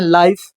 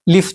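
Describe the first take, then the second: First: The vowel is a long gliding sound. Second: The vowel is a short plain sound. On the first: This is how it is pronounced today. "आज हम लोग पढ़ते हैं लाइफ ... long vowel" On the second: This is how it was pronounced long ago. "उस समय लिफ जैसा पढ़ा जाता था"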